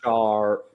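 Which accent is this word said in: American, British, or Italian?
American. The R is pronounced with a curled tongue. "whereas in American"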